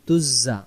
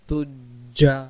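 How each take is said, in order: First: The doubled consonant is a 'z' sound. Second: The doubled consonant is a 'j' sound. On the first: The speaker calls it wrong. "তখন যা অক্ষর উচ্চারণ হবে" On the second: The speaker calls it right. "জিম জবর যা"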